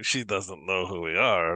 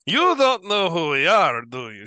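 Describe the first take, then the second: First: Said in the usual way. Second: High, loud disbelief; incredulous boast. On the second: Acted. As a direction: exclaim it at a high pitch, astonished by the newcomer. Amused boast after laughing at her.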